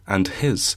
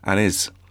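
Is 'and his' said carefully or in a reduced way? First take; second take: carefully; reduced. First: Each sound is clearly and fully pronounced. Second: The words are run together with sounds dropped. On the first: This is a forced, effortful way of saying it. "when I have to try and enunciate that, I have to try and say" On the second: This is the natural, everyday way of saying it. "if I said that in real life and I wasn't recording it, I would say"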